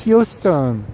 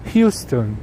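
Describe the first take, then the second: First: "Houston" said slowly as the correct local name; correct pronunciation. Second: "Houston" said his usual way, like the Texas city "HYOO-ston"; his own pronunciation. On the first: Apologizing to chat, saying "Houston" the right way. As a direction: spell out "Houston" carefully, the proper way. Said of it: "It's Houston". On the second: Admitting to viewers how he says "Houston". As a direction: say "Houston" as he always does. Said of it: "But I say Houston". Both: Shown as a demonstration.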